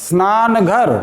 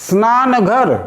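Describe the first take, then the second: No difference in how they are said.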